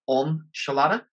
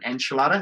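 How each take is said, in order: First: The first vowel sounds like the O in 'on'. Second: The first vowel sounds like the E in 'end'. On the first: The speaker calls it right. "The E is an O just at the start" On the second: The speaker calls it wrong. "A lot of people call it an enchilada. It's not"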